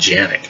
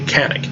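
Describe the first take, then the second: First: The name begins with a J sound. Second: The name begins with a hard K sound. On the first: This is how people in Turkey say the name. "a J sound, so it's more like Janik" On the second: This is how English speakers say the name. "we read the C as we would normally read a C like in cat"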